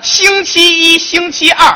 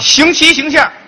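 First: It is said at normal speed. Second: It is said fast, Beijing style.

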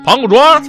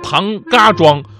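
First: The middle syllable is light and toneless. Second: The middle syllable keeps a full tone.

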